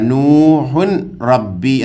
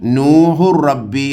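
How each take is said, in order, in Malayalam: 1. "rabbi" ക്ക് മുമ്പ് വ്യക്തമായ "n" ശബ്ദം കേൾക്കാം. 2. "n" ശബ്ദം "rabbi" യിലേക്ക് ലയിച്ചു പോകുന്നു. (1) "ഇവിടെ നൂഹുൻ റബ്ബി എന്ന് എഴുതിയിരിക്കുന്നത്" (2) "നൂഹു റബ്ബി എന്നാണ് ഓതേണ്ടത്"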